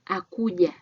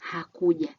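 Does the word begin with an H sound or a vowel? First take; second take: Vowel; H sound. First: The word begins directly with a vowel. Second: The word begins with an H sound. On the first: The speaker calls it wrong. "Akuja instead of saying hakuja" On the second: The speaker calls it right. "instead of saying hakuja, meaning he or she did not come"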